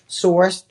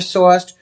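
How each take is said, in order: First: The R sound is clearly pronounced. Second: The R sound is dropped. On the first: The speaker calls it right. "I squeezed that R in" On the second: The speaker calls it wrong. "that's the Boston accent coming out"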